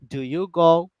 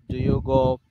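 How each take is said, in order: First: The pitch rises at the end. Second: The pitch does not rise at the end. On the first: It is heard as a question. The speaker calls it right. "I just put the intonation up, a bit up at the end of the sentence" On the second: It does not sound like a question. The speaker calls it wrong. "it doesn't make sense"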